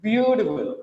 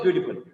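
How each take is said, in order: First: "Beautiful" with a long, swelling BEAU; BEAU-tiful, drawn out and falling; expressive first-syllable stress. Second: Said in the usual way. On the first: Shown as a demonstration. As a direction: stretch BEAU in "Beautiful" to show intensity. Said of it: "read like this". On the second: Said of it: "Not just beautiful".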